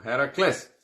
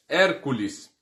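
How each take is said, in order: First: Heracles said the Greek way, not like Hércules; Heracles, Greek style; Greek form. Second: Said in the usual way. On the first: Shown as a demonstration. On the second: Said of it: "é o Hércules".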